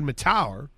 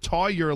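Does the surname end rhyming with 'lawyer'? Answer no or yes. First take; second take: no; yes. First: The surname does not rhyme with lawyer. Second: The surname ends rhyming with lawyer. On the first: The speaker calls it wrong. "I had always said McCade Matower" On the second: The speaker calls it right. "it's Tawyer like lawyer"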